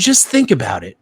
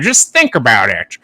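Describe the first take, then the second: First: It is said in an ordinary speaking voice. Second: It is said in a put-on old-time mobster voice.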